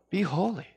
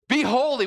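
First: It sounds gentle and kind, not commanding. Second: It sounds like an angry, scolding command.

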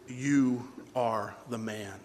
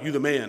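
First: It sounds like an accusation. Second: It sounds like admiring praise.

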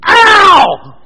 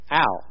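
First: It is a big, loud ow. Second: It is a small, quiet ow.

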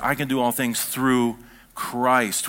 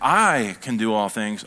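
First: The stress is on the word Christ. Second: The stress is on the word I.

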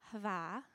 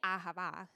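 First: The word begins with a breathed h. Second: The word begins with a spoken vowel. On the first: The speaker calls it right. "how it's really pronounced is hava" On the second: The speaker calls it wrong. "I say it with a horrible Michigan accent"

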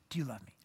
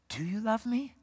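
First: It is said at a normal speed. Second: It is said a little more slowly.

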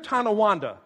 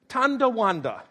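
First: There is no d sound after the first syllable. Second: A d sound follows the first syllable. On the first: The speaker calls it right. "when they hear Tonawanda" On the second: The speaker calls it wrong. "They want to add a D. They want to pronounce it Tondawanda"

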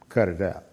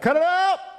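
First: It is said quietly. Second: It is said loudly.

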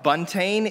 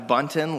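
First: The ending does not sound like 'mountain'. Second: The ending sounds like the end of 'mountain'. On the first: The speaker calls it wrong. "a fairly popular pronunciation of my last name, but incorrect" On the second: The speaker calls it right. "like mountain, kind of like that A-I-N at the end of mountain"

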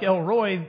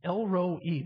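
First: The name ends in one 'roy' syllable. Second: The name ends in 'ro' plus 'ee'. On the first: The speaker calls it wrong. "in my redneck way of reading things, that looks like Elroy to me" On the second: The speaker calls it right. "This is actually Elroy. That's a phonetic way of saying it. The I looks like two E's"

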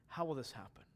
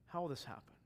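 The two takes are said the same way.

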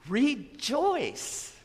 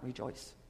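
First: The word is said loudly with strong excitement. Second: The word is said quietly with flat energy. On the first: The speaker calls it right. "That's an exclamation point there" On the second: The speaker calls it wrong. "Not rejoice"

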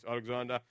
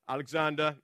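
First: It is said in a deep voice. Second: It is said in his normal voice.

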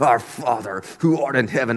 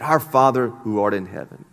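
First: It is said hard through gritted teeth. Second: It is said in a plain, relaxed voice.

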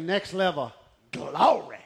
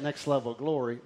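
First: The phrase is said loudly with explosive energy. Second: The phrase is said in a calm, ordinary voice. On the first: "We like it loud and exciting" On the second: "that's the way you say it"

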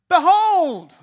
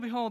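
First: It is said loudly and forcefully. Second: It is said casually and quietly.

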